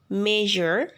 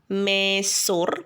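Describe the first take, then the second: First: The middle consonant is a zh sound. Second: The middle consonant is not a zh sound. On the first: The speaker calls it right. "tetapi usually, measure" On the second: The speaker calls it wrong. "mesur, bukan"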